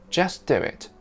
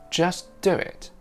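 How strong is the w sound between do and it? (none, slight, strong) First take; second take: slight; slight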